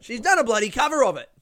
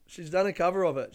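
First: Loud, high, fast exclamation; emphatic outburst. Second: Said in the usual way. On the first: Real, not acted. Host insisting she's done a cover, emphatic outburst. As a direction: blurt it out louder and higher.

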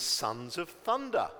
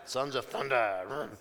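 First: Said in the usual way. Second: Mock biker-gang growl of a name; motorbike gang. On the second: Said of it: "It sounds like a motorbike gang".

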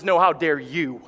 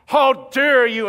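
First: Lower, firm, stress on how; God turning it back. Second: Slow, loud, higher how dare you; mock-offended churchgoer, loud and slow; indignant outrage. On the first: Retold or imitated. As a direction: calmly turn the words back on them. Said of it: "And God says". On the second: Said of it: "you're sitting there saying".

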